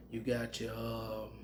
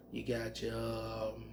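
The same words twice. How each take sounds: The two takes are said the same way.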